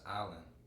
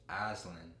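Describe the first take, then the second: First: The word is said without an S sound. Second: The word is said with an S sound. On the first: "The S is silent. It's pronounced island" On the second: "I was saying Iceland"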